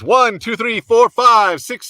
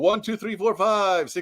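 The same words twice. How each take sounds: First: The voice sounds dry with little echo. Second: The voice has a noticeable room echo. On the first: "There should be less echo" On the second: "back out here into the echoey room"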